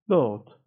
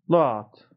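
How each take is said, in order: First: The vowel sounds rounded, close to o. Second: The vowel sounds open, close to a.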